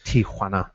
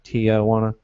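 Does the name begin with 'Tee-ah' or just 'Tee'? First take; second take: Tee; Tee-ah. First: No extra 'ah' sound follows the first syllable. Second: An extra 'ah' sound follows the first syllable. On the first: The speaker calls it right. "It's really just" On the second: The speaker calls it wrong. "we want to say like T I A J, kind of"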